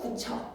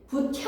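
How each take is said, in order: First: The second consonant is an aspirated ch sound. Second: The second consonant is an aspirated t sound. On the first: The speaker calls it right. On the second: The speaker calls it wrong.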